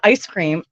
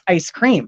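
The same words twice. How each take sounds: First: It is said with ordinary standard word stress. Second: It is said with an Eastern Ontario stress pattern. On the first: "it's not ice cream" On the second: "it's ice cream"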